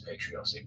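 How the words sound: It is said with an American pronunciation. "the American pronunciation is patriotic"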